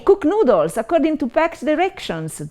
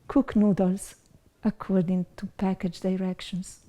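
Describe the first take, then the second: First: It is read in an excited, lively way. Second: It is read in a sad, gloomy way. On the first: "as if it was super exciting" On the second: "as if it was something very sad"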